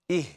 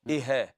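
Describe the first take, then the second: First: The h closes the syllable with no vowel. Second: A short vowel is added after the h. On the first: The speaker calls it right. "sukun or the jazm" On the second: The speaker calls it wrong. "it's not ihe"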